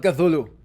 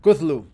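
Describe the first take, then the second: First: Cthulhu said as three syllables, "ka-THOO-loo"; three-beat "ka-THOO-loo" for Cthulhu; mistaken pronunciation. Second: Cthulhu in two syllables, loud "KUTH-loo"; firm two-beat "kuth-loo" for Cthulhu; corrected pronunciation. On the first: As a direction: say Cthulhu as "kuh-THOO-loo", stress in the middle. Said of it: "I've been saying it wrong". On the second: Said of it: "not Cthulhu". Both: Shown as a demonstration.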